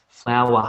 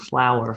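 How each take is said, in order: First: It is said in an Australian accent. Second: It is said in an American accent. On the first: "They sort of cut the end off a little bit" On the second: "Whereas the Americans say flower"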